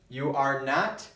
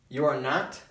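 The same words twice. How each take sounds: First: Each word is said separately and fully. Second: The words are run together into a contraction.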